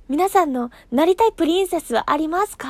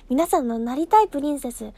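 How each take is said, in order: First: Louder, asking the audience directly; "なりたい" lifted as a cheerful question to fans; cheerful question to her listeners; bright question to listeners. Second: Said in the usual way. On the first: Shown as a demonstration. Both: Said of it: "すごい乙女なことを聞きましょう".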